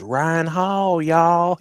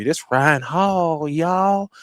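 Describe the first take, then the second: First: Higher, drawn-out Southern "Ryan Hall, y'all"; Southern twang shout-out. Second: Slow, drawn-out Southern "Ryan Hall, y'all"; Southern twang shout-out. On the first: Hyping the YouTube weatherman with his Southern catchphrase. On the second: Praising the weatherman in his Southern catchphrase. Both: Retold or imitated. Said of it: "He got this little Southern twang".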